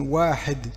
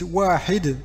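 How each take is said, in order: First: The second vowel sounds between 'ee' and 'e'. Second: The second vowel is a clear 'ee' sound. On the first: This is the Tunisian way of saying it. "les tunisiens ont cette tendance à, pour la, la voyelle i, à un peu la mettre en e" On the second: This matches literary Arabic. "ça sera exactement comme l'arabe littéraire"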